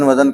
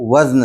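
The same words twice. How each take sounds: First: A vowel is inserted between z and n. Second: The z and n form one final cluster. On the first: This is how people commonly say it. The speaker calls it wrong. "अक्सर ये लफ्ज़ गलत बोला जाता है, लोग वज़न वज़न कहते हैं" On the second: This is the standard pronunciation. The speaker calls it right. "सही तलफ़्फ़ुज़ जो है वो वज़न है"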